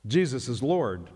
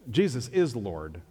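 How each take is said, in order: First: Said in the usual way. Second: "is" stressed against "make". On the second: Real, not acted. Preacher correcting the idea of making Jesus Lord, stress on "is". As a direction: land firmly on the word "is". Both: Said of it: "you don't make Jesus Lord".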